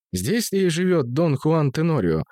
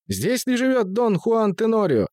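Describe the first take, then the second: First: Lightly voiced metallic violinist; slow, metallic, declaiming question; metallic loud voice. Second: High squeaky voice. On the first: A narrator's reading. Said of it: "спросил скрипач металлическим голосом и очень громко". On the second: Acted. Deaf servant asks the question.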